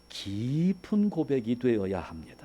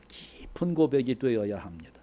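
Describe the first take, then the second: No difference in how they are said.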